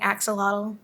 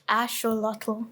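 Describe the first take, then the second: First: It has the familiar English pronunciation. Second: It has the original Nahuatl pronunciation. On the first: The speaker calls it wrong. "the wrong way" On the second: The speaker calls it right. "what's the real way?"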